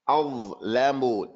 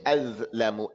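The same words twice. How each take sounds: First: The consonant is heavy, with tongue pressure. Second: The consonant is light, without tongue pressure. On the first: The speaker calls it right. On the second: The speaker calls it wrong.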